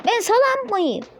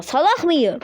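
First: "salak" slipped out as "salam", high-pitched; slip of the tongue. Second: "salak" with a hard final k, rasped toward h; corrected word. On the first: Player fumbling an insult at himself, "salak" mispronounced as "salam". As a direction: end "salak" on an m by mistake, "salam". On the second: Player correcting his own slip, "salak" said with its proper k ending. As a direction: fix the slip, end "salak" in the throat. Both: Real, not acted. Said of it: "Salak mıyım dedim yanlışlıkla".

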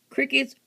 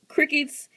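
First: Slow, firm "Crickets" with the weight on it; stress on crickets. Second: Said in the usual way. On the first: Real, not acted. Laying down the lizard's new diet to viewers, "Crickets" slow and stressed. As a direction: spell out "Crickets" slowly, as a rule. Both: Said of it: "Crickets, worms".

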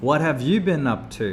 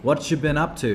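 First: "What have you been up to?" with "have" said out; careful full form with "have". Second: "What you been up to?" with "have" dropped, run together; casual "What you" with no "have"; reduced casual form. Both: Shown as a demonstration. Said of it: "มาจากคำว่า".

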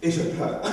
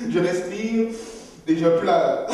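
First: Laughing through a pretend cry; fake crying. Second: Higher, louder forced crying; mock labour breathing. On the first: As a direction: laugh while faking tears. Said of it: "En fait, je fais semblant". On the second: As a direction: push the tears out like giving birth. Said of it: "comme si j'étais en train d'accoucher".

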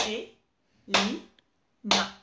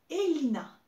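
First: Elina slow and louder, E-li-na, one beat each; syllable by syllable. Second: Said in the usual way. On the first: Shown as a demonstration. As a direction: stretch Elina into three clapped syllables. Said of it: "Trois syllabes". (Elina lentement, syllabe par syllabe) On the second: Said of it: "À toi".

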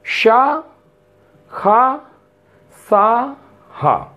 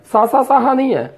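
First: शा with a clear sh sound, slow and deliberate; careful correct pronunciation; correct sha. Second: सा said as a plain s, the common mistake; teacher mimicking a mispronunciation; wrong sa. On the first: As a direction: say शा, खा, सा, हा very slowly. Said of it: "उच्चारण आपका सही होना चाहिए शा". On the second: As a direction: show the wrong सा sound. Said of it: "कुछ लोग इसे सा भी बोलते हैं". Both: Shown as a demonstration.

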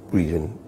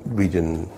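The two takes are said the same way.

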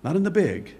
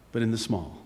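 First: Said in the usual way. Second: Hushed contrast. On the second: Real, not acted. Preacher contrasts big with small, dropping low and soft. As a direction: lower and softer.

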